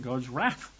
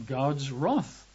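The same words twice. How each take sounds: First: "wrath" with a short a, like "rath"; American pronunciation. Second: "wrath" with a rounded vowel, like "roth"; British pronunciation. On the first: Preacher offers the word for Americans, "wrath" said as "rath". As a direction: say "wrath" the American way, rhyming with "math". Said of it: "or if you're American". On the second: Preacher gives his congregation the home term, "wrath" said as "roth". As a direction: say "wrath" the British way, rhyming with "cloth". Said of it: "over here across the pond, we say wrath". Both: Shown as a demonstration.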